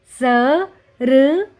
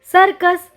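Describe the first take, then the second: First: "सर्कस" split as स... र... क... स; "सर्कस" as four separate sounds; letter by letter. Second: Said in the usual way. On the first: Shown as a demonstration. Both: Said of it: "उच्चारण करके पढ़ेंगे".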